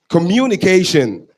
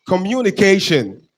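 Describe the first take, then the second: Both takes have the same delivery.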